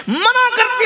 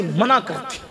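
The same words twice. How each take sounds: First: Much higher, forceful repeat; emphatic cry. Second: Said in the usual way. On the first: Real, not acted. Preacher stresses that the Prophet forbade it, emphatic cry. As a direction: drive it home at full pitch.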